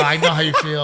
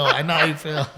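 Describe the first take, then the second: First: Says it louder while laughing. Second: Laughing. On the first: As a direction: laugh through a mock reply to the toddler. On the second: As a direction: echo the line, easing off through the laughter. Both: Retold or imitated. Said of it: "I go".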